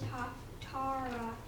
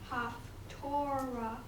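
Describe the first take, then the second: First: It is said in Sephardic Hebrew pronunciation. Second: It is said in Ashkenazi Hebrew pronunciation. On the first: This is the form used in modern Hebrew. The speaker calls it right. "the correct pronunciation of Haftarah is" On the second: This is an older form no longer used. The speaker calls it wrong. "It is not Haftorah"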